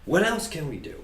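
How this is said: It is said agitatedly, with rising inflection. The speaker feels frustrated that nothing has worked. "somebody who's really worked up and agitated"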